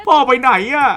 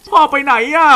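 First: Put-on dub the child's line high again. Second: Put-on dub the child's line in a high kid voice. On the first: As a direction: mimic the game kid, high pitched. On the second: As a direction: mimic the game kid, pitched way up. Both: Shown as a demonstration. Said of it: "Where's Dad?". (เสียงเด็กแหลมสูง)

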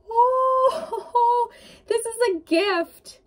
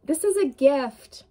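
First: High, overcome gasp into a teary laugh; moved almost to tears; getting emotional. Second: Said in the usual way. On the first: Real, not acted. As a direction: voice lifting with real emotion. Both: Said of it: "I'm getting emotional for you".

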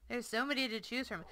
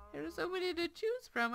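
First: Said in the usual way. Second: Higher repeat. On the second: Shown as a demonstration.

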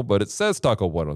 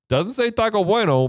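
First: Said in the usual way. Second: Raised pitch. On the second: Shown as a demonstration.

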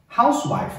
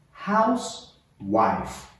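First: Said in the usual way. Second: HOUSE, pause, WIFE, drawn out slowly; word split in two. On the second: Shown as a demonstration. Teacher models Housewife for learners to repeat, slowly split in two.

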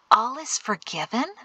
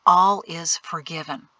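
First: ALL IS FORGIVEN echoed as a question, rising on FORGIVEN; puzzled question. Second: ALL IS FORGIVEN as a settled statement, falling at the end. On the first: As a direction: repeat "All is forgiven" in doubt, voice lifting at the end. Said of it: "Mari frowned". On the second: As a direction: pronounce "all is forgiven" with finality, voice dropping. Solemn statement, later echoed as question. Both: A narrator's reading.

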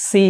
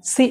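First: সি with a long held ee; drawn-out vowel. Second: সি cut short, vowel not held; quick সি with no lengthening; short wrong take. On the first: Teacher models the letter with a colon, drawn out. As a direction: stretch the vowel of সি. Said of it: "সি বলবো". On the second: Teacher shows what we won't say, too short. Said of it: "এরকম বলবো না". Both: Shown as a demonstration.

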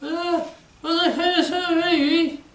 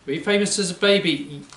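First: Put-on high childlike puppet voice. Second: Said in the usual way. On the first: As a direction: voice the little puppet, pitched high. Puppet asks adult a question.

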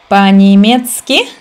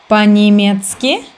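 The two takes are said the same way.

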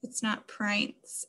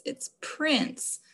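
First: Prince said as "prynce" with a long I, whispered; wrong long I. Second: Prince said with a short I, "prins". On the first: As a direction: prince with the long I sound, softly. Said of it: "So it's not Mister I". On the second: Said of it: "does not make that long I sound". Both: Shown as a demonstration.

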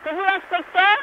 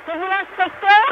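Both takes have the same delivery.

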